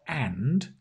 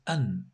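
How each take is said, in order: First: The word is said fully with a final d. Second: The word is reduced without a final d. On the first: The speaker calls it wrong. "Notice it's not and" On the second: The speaker calls it right. "it's an"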